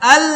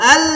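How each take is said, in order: The two takes are said the same way.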